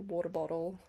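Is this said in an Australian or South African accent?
Australian. It is said with an Australian accent. "which is really Australian"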